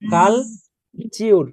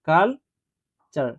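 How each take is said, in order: First: The second syllable is said with a long 'yoo' sound. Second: The second syllable is said as a short 'chur'. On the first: The speaker calls it wrong. "Long sound যদি করি তাহলে চিউর হওয়ার কথা" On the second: The speaker calls it right. "এই যে কাল চার হবে"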